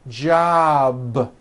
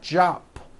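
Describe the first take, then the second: First: The final consonant is a voiced B. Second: The final consonant is an unvoiced P. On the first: The speaker calls it right. "with a voiced B ending" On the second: The speaker calls it wrong. "with an unvoiced P"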